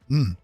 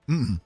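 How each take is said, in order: Both takes have the same delivery.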